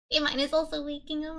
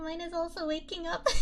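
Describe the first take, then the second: First: Said in the usual way. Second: Laughing. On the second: Real, not acted. Streamer laughing at her own small win. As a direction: repeat it through a giggle. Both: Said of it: "repeats it laughing".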